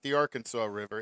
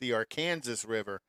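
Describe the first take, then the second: First: Arkansas ends with a 'saw' sound. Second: Arkansas ends like Kansas, with a 'sas' sound. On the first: The speaker calls it wrong. "It's not the Arkansas River" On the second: The speaker calls it right. "It's in Kansas. It's the Arkansas River"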